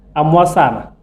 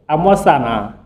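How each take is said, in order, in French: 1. La voyelle finale est brève et plate. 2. La voyelle finale est allongée, avec un ton qui retombe bas. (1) "tu suces les mangues" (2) "À la forme interrogative"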